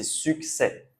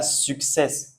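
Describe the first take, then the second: First: "succès" ending on an open "è", no S; silent final S. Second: "success" ending in a hissed S, as in English; sounded final S. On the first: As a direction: drop the last S of "succès". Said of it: "Ici, c'est succès". (succès, le S final muet) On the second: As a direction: wrongly sound the last S of "success". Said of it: "pas comme en anglais". (success, le S final prononcé) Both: Shown as a demonstration.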